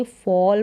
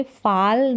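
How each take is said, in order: First: फॉल with a rounded aw, like fawl; correct pronunciation demo. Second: फाल with a flat long aa, like faal; wrong pronunciation demo. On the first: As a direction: say फॉल with the open rounded vowel. (फॉल को गोल ऑ के साथ सही उच्चारण) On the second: (फाल को लंबे आ के साथ गलत उच्चारण) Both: Shown as a demonstration. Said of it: "फाल नहीं पढ़ेंगे".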